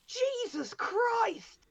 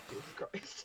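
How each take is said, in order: First: "Jesus Christ!" drawn out slow, much higher and louder; shocked exclamation. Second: "Jesus Christ." whispered soft and flat; deadpan punchline. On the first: Retold or imitated. Brother opening a drawer, shocked, slow and high. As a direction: recoil at what's in the drawer. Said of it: "just went". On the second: Shown as a demonstration. Storyteller revealing the statue to her co-host, whispered deadpan. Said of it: "So it was literally".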